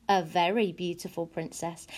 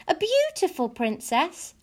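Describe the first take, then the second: First: Low, quiet statement settling on "princess"; measured answer. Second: High, slow question rising on "princess". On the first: Storyteller answering the girl, low measured "very beautiful princess". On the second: Girl interrupting the storyteller to ask, high questioning "princess". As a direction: ask "beautiful princess" high and drawn out, eager to know. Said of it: "Abilene asked". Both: A narrator's reading.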